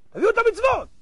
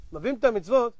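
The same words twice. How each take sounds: First: High-pitched acted order; ringing, raised-pitch command; court command. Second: Said in the usual way. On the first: Heavenly court orders deeds brought.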